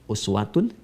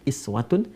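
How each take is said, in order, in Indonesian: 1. Kata ini diawali vokal 'u' yang dibulatkan. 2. Kata ini diawali vokal 'i' depan. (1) "uswah harakat dhammah" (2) "bisa juga dibaca dalam riwayat Qalun atau Warsh dari Nafi' dengan iswah"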